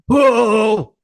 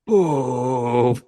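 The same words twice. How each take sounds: First: The word is yelled loudly. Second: The word is said quietly. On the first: "you just yelled it" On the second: "if you hadn't read ahead"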